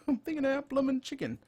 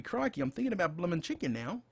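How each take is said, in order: First: Fast, much higher, laughing through the words; laughing repeat. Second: Said in the usual way. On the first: Real, not acted. Joking to viewers about craving chicken, laughing. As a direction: repeat it again, cracking up at yourself. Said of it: "Crikey, I'm thinking about bloomin' chicken now". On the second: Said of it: "I'm thinking about bloomin' chicken".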